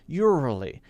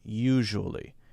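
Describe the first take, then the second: First: The middle consonant is made too soft and gentle. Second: The middle consonant is a balanced, moderate zh sound. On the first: The speaker calls it wrong. "A lot of people say ur- urally, ... No, no, not urally" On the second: The speaker calls it right. "Right in the middle"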